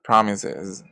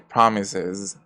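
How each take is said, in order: No difference in how they are said.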